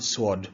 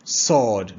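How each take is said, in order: First: Sword said as the mistaken version, quieter; quiet wrong sword for contrast. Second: Sword said sawd, no w sound; sawd, drop the w; silent w in sword. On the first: Teacher shows the class the wrong sword, quietly. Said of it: "not sword". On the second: Teacher drills sword with a silent w. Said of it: "The W is silent". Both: Shown as a demonstration.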